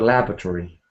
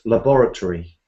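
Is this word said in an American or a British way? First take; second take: American; British. First: It is said with an American pronunciation. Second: It is said with a British pronunciation. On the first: "in America, they both sound a bit the same" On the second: "I would say"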